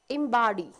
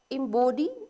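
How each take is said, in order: First: It is said with an American accent. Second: It is said with a British accent. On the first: "is American pronunciation" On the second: "is the British pronunciation"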